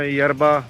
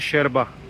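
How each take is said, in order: First: The word begins with a 'y' sound. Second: The word begins with a 'sh' sound. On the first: This is how English speakers would say it. "हम तो इंग्लिश में यरबा प्रोनाउंस करेंगे" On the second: This is how the locals say it. "लेकिन वो प्रोनाउंस करते हैं शेरबा"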